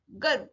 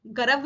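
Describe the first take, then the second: First: गर्व as "garv", no vowel after r; light र. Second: गर्व as "ga-rav", full vowel after r; misread with added vowel. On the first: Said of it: "हल्के से र". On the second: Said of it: "गर्व नहीं पढ़ेंगे". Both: Shown as a demonstration.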